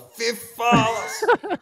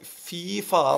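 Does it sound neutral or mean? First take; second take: mean; neutral. First: It is said in a mean, angry tone. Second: It is said in a neutral tone.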